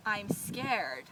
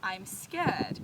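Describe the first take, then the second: First: "scared" with the R sounded, American style; "I'm scared" with a clear R at the end of "scared"; rhotic scared. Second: "scared" said "skeh-d" with no R; non-rhotic scared. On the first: Teacher showing the wrong way: "scared" with a hard R. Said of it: "I would not say". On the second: Teacher showing the right way: "scared" with no R. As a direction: drop the R: "scared" as Australians say it. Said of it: "I would say". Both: Shown as a demonstration.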